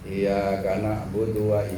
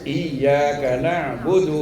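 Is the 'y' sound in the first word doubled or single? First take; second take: single; doubled. First: The y sound is short and single. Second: The y sound is held long and doubled. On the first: The meaning shifts to the rising sun. The speaker calls it wrong. "Itu kalau nggak ada sidahnya" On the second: Only you we worship. The speaker calls it right. "Harus digetak, disidak"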